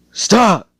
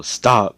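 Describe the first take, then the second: First: Sudden high, loud scream; panicked scream on waking; screaming stop. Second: Mild retold yell, less high than the first. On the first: Retold or imitated. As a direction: wake up screaming it out of a nightmare. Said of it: "he screams out". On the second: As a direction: echo the yell in passing. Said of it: "when she heard him yell".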